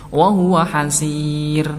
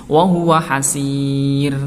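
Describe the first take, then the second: No difference in how they are said.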